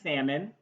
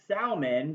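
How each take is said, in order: First: The L sound is left silent. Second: The L sound is clearly pronounced. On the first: The speaker calls it right. "the L is silent" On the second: The speaker calls it wrong. "pronounced as salmon because of that heavy L"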